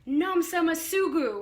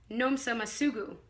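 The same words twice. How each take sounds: First: The name is shouted loudly. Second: The name is said quietly.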